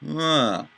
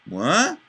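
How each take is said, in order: First: The pitch falls through the syllable. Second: The pitch rises through the syllable. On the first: "and an inflection down" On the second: "I had an inflection up"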